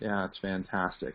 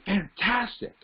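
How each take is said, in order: First: It is said with low, lifeless energy. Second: It is said with high, excited energy.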